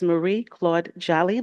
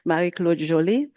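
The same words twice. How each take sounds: First: The name is said with English-style pronunciation. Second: The name is said with French-style pronunciation. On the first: The speaker calls it wrong. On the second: The speaker calls it right.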